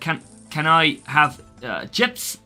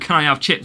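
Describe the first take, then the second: First: It is said in a put-on foreign accent. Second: It is said in a normal accent.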